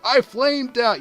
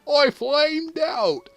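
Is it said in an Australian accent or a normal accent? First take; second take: normal; Australian. First: It is said in a normal, non-Australian accent. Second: It is said in a put-on Australian accent.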